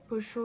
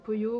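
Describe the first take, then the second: First: The double L sounds like 'sh'. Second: The double L sounds like 'y'. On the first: "une argentine qui pour le coup aurait une prononciation entièrement différente" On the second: "celle d'Espagne"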